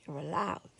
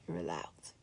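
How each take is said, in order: First: Said in the usual way. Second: Much softer, lower, breathy whisper; tender whisper of "You're allowed"; whispered reassurance. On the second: Real, not acted.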